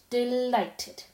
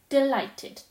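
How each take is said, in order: First: Said in the usual way. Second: "Delighted" said up and louder, falling at the end. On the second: Acted. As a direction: exclaim "Delighted" with glee. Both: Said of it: "it went on".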